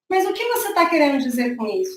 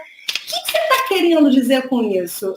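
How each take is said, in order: First: It sounds calm and composed. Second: It sounds aggressive and confrontational.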